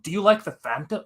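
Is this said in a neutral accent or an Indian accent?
neutral. It is said in the speaker's own accent.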